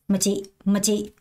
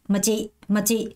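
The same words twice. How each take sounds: The two takes are said the same way.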